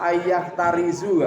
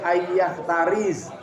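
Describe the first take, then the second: First: The last word ends with a u vowel. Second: The last word ends on a bare z sound. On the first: "gak boleh" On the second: "tidak boleh"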